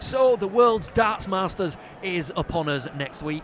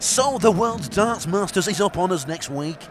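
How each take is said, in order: First: Slow, polished presenter read. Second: Slow, louder, nasal presenter read; posh presenter voice. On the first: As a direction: articulate like a TV presenter. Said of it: "I'll say something like". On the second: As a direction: copy the polished presenter delivery. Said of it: "I'll try it". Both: Shown as a demonstration.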